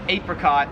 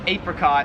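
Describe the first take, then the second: First: It is said the Australian way. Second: It is said the Australian way.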